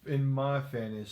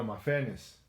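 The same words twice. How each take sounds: First: "fairness" run together, sounding like fantasy; accent blurring "fairness" toward "fantasy". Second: "fairness" repeated with a clear r; "fairness" said distinctly, r pronounced; clarified "fairness". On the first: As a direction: say "fairness" with the r dropped, close to "fantasy". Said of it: "that's that accent right there". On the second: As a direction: correct a mishearing, sounding out "fairness". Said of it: "In your what?". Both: Real, not acted.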